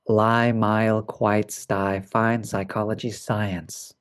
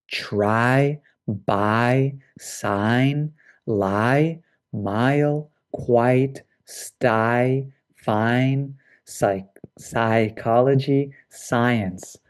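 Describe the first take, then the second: First: Words run in pairs without stretching; quicker, lower word list with clear vowels; natural quicker speed. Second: Each word drawn out with space around it; slow, careful pronunciation model; lengthened vowel sounds. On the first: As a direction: say the list briskly, softening toward the end. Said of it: "quite fast". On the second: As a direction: stretch the long I so both parts are clear. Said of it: "I am lengthening the sound". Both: Shown as a demonstration.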